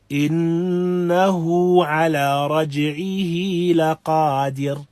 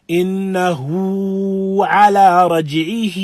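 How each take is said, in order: First: Slow recitation with the ه of إنه and رجعه held just two counts; correct two-count recitation. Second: Slow, higher, louder singing drag on the ه of رجعه, held far past two counts; overstretched recitation. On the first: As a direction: recite إنه على رجعه لقادر with a measured two-beat ه, no excess. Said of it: "يكفي. حركتين". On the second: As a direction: exaggerate إنه على رجعه like a singer, dragging each ه too long. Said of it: "there is no exaggeration needed". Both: Shown as a demonstration.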